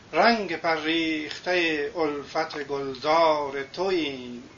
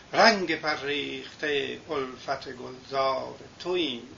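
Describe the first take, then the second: The two takes are said the same way.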